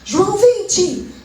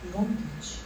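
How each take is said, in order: First: It is said boldly and loudly. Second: It is said timidly and very quietly.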